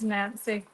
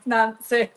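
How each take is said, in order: First: Nancy said oddly, soft and flat-voweled; the name Nancy slipped out in a funny, quiet way. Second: Nancy with an open ah vowel, nahn-see; Nancy said right. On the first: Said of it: "I just said Nancy, funny". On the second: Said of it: "I didn't mean to say it like that". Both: Shown as a demonstration.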